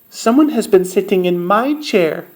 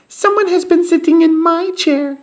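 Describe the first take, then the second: First: A medium, mid-pitched voice. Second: A tiny, high, squeaky voice.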